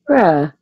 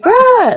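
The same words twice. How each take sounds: First: It sounds super sad. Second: It sounds super happy.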